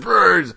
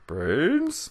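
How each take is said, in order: First: It is said like an urgent, excited alert. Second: It is said like an asking, searching question. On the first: The speaker has spotted someone. "Or if you saw him, like brains" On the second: The speaker is asking where someone is. "like brains is like, do you know where he is?"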